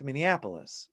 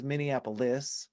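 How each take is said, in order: First: "Minneapolis" stressed on AP, weak ending; natural stress. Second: "Minneapolis" with a stressed LISS at the end; wrong stress. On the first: Songwriter correcting the bad rhyme, "Minneapolis" stressed on AP. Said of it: "It's Minneapolis". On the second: Songwriter showing what nobody says, "Minneapolis" ending on LISS. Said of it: "nobody says Minneapolis". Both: Shown as a demonstration.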